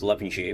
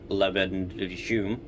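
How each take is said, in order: First: The name is said with its local pronunciation. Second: The name copies the computer voice's mispronunciation. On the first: The speaker calls it right. "It's Levenshulme" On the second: The speaker calls it wrong. "not Levenshulme"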